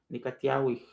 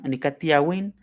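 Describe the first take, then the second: First: The word ends with a breathy aspirated h. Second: The word ends with an n sound. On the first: "no Tiawij" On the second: "se termina con N"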